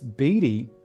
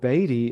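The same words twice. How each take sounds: First: The name is pronounced the English way. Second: The name is pronounced the American way. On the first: This is how people in England say it. "how most people pronounce it in England" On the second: This is how the family says it. "how we pronounce"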